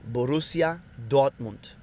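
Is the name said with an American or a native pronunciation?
native. The name is said with a native German pronunciation. The speaker calls it right. "This is going to be Borussia Dortmund"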